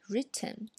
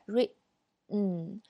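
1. 这个 t 释放时有可听见的爆破音。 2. 这个 t 是扣住的，在 n 前面没有爆破音。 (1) "那么我们经常会这样读，因为音标就是这样写的" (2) "但是现在我们这个t 不把爆破音爆出来"

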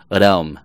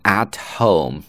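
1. 轻柔的 d 音连到省略了 h 的 home 上。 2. t 音清晰，h 音保留。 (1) "at 会读为adome，但读轻一些" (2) "本来是at home"

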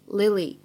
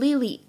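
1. 这个单词里的两个元音听起来不一样。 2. 这个单词里的两个元音听起来一样。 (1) "应该正确的读法呢是Lily" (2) "大家切记不要把当中的两个元音读成一样的……你不能读成Lily……都是错的"

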